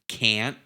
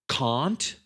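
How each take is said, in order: First: It is said in an American accent. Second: It is said in a British accent. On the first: "it's not subtle with the American one" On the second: "That's that's British"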